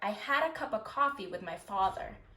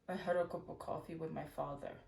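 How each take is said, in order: First: The vowels are said with a wider open mouth. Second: The vowels are said with a more closed mouth. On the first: The speaker calls it right. "for American English, we open our mouth more" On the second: The speaker calls it wrong. "not using frontal vowels like this"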